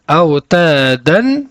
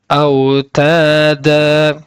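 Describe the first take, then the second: First: The word ends with a short vowel and n. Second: The word ends with a lengthened vowel, no n. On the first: The reciter continues without stopping on this word. "Si on ne s'arrête pas sur ce mot-là, nous allons devoir prononcer le tanwin" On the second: The reciter stops on this word. "nous n'allons pas prononcer donc le tanwin, mais nous allons prolonger deux temps"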